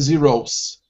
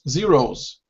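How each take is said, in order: First: The word ends with a hissing s sound. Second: The word ends with a buzzing z sound. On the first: The speaker calls it wrong. "We don't say zeros" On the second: The speaker calls it right. "that S actually changes to a Z or Z sound"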